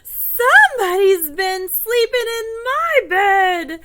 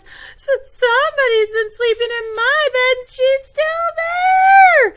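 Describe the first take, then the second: First: High, loud, slow indignant bear; Papa Bear. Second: Very high, loud, shrieking little bear; stammer, then squeal in mock alarm; Baby Bear. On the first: Acted. Seeing his bed slept in, loud astonished father bear. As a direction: boom it out slowly in astonishment. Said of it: "Papa Bear looks at his bed and he says". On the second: Finding Goldilocks in his bed, squealing astonished little bear. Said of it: "his eyes get really big and he says".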